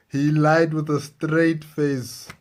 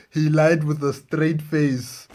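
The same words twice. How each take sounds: The two takes are said the same way.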